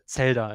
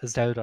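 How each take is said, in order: First: It begins with a sharp ts sound. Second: It begins with a buzzing z sound. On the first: This is how it is said in German. "the Z is very sharp, so we say Zelda in German" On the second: This is how it is said in English. "in English you would say Zel- Zelda"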